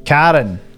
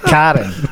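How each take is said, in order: First: The A vowel in the first syllable is emphasized. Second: The same.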